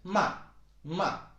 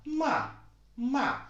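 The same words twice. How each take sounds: First: It is said in a normal speaking voice. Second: It is said in an exaggerated high voice. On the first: "but you can just say ma ma. So you don't actually have such a high pitched voice" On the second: "of course, I'm exaggerating a bit because you know I I'm I'm showing it to you"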